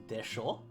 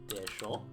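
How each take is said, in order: No difference in how they are said.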